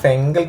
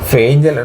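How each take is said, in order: First: The name is said with an 'ng' sound. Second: The name is said with an 'nch' sound. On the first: The speaker calls it right. "ഫെങ്കൽ തന്നെയാണ് കേട്ടോ" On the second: The speaker calls it wrong. "ഫെങ്കൽ തന്നെയാണ് കേട്ടോ"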